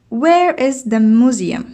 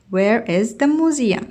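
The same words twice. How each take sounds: First: "Where is the museum?" with the tune falling at the end; falling intonation. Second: Slow "Where is the museum?" falling on "museum"; falling intonation, slow. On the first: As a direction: let the voice drop at the end, start with "Where". (نغمة هابطة في آخر السؤال) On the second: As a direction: draw it out and drop on "museum". (قراءة بطيئة بنغمة هابطة) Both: Shown as a demonstration. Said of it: "عندها نزول في الصوت".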